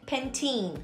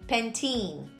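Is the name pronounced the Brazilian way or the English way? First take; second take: English; English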